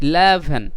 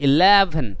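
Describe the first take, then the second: No difference in how they are said.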